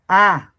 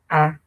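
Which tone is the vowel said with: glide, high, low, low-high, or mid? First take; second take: low-high; mid. First: The vowel rises from low to high. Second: The vowel is said on a mid tone. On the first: "low high" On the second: "mid tone"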